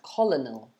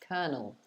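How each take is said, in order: First: The first syllable is said like 'coll', as spelled. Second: The first syllable is said like 'ker'. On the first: The speaker calls it wrong. "you'd see it and think it's pronounced colonel" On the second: The speaker calls it right. "but actually, mm-mm, colonel"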